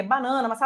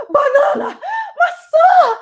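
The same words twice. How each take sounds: First: Said in the usual way. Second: Much higher and louder, laughing shout; euphoric. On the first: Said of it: "em vez de ler banana, maçã". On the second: Shown as a demonstration. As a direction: yell the grocery list out in pure joy. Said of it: "com uma intenção de muita alegria, euforia".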